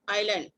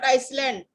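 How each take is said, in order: First: The s sound is silent in the middle. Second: The s sound is pronounced in the middle. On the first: The speaker calls it right. "S is silent" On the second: The speaker calls it wrong. "Not Iceland"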